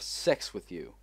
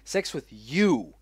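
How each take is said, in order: First: The stress is not on "you". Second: The stress falls on "you". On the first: The speaker calls it wrong. "I'm sorry" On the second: The speaker calls it right. "I'm reading this with because you can see it's it's italic"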